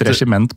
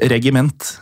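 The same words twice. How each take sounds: First: The g is soft, as in regissør. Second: The g is pronounced as a hard sound. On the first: The speaker calls it wrong. "vi har jo tenkt regiment på grunn av regissør" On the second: The speaker calls it right. "det uttales visstnok regiment"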